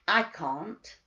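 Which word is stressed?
I. The stress is on "I".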